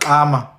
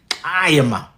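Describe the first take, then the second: First: The vowel is said plainly, without squeezing. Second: The vowel is squeezed out of the voice. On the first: The speaker calls it wrong. "it's not Kama" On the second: The speaker calls it right. "the vowel is squeezed out of the voice"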